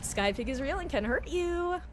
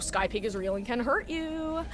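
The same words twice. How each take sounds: First: It is said in a cutesy baby voice. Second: It is said in her normal voice.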